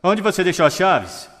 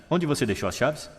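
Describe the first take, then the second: First: "Onde" agudo e forte, "chaves" caindo no fim; tonalidade excitada. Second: "chaves" subindo no fim, pergunta simples; pergunta neutra. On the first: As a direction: cobre a resposta, alto e agudo, descendo em "chaves". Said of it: "Significados ligeiramente diferentes". (pergunta exaltada, "chaves" cai no fim) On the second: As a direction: pergunte com leveza, terminando "chaves" em tom ascendente. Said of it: "apenas com a tonalidade". (pergunta tranquila, "chaves" sobe no fim) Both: Shown as a demonstration.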